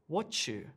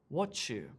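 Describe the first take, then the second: First: The t and y blend into a ch sound. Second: The t and y blend into a ch sound.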